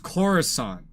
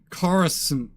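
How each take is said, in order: First: The last syllable is said like sant. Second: The last syllable is said like sint. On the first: This is how it is said in the films. The speaker calls it right. "everybody in the movie says Coruscant" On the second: This is how it is said in the game. The speaker calls it wrong. "Sint instead of Sant"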